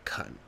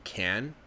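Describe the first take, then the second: First: The word has a short, reduced vowel. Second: The word has a full, clear vowel. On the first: "they'll sometimes say kun" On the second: "instead of saying can"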